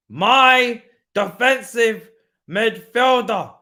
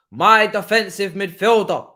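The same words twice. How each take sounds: First: Very slow, loud, lingering on every syllable; milk it like a proud fan; even more drawn out. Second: Slow, loud and savoured; drawn-out praise. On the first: Repeats praise even slower. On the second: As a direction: stretch each word out like a proud fan. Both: Acted.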